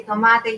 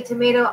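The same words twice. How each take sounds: First: "tomate" as toh-MAH-teh; Spanish word. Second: Said in the usual way. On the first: Shown as a demonstration. Crafter joking about differing pronunciations, Spanish word. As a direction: say "tomate" with pure Spanish vowels. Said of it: "I say tomate". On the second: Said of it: "You say tomato".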